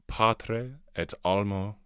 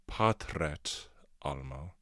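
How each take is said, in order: First: Both touching vowels are pronounced separately. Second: The touching vowels merge, one vowel disappears.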